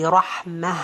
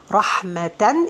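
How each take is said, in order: First: The word ends with a breathy 'ah' sound. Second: The word ends with a nasal 'an' sound.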